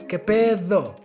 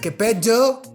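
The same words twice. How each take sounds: First: The d is pronounced soft and light. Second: The d is pronounced hard and strong. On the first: The speaker calls it right. "it's a little bit softer" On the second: The speaker calls it wrong. "It's not que pedo, que pedo, it's too strong"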